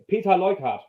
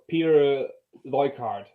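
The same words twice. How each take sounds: First: The name is said with a German accent. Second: The name is said with an English accent. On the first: "in Germany you say" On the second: "in English you would say"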